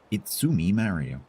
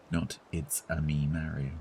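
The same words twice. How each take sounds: First: Lighter, half-hearted Mario; Mario impression. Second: Said in the usual way. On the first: Repeating the Mario bit to chat, a milder hammed-up voice. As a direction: toss off a milder Italian plumber. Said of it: "an Italian accent for a new character".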